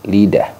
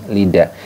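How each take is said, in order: The two takes are said the same way.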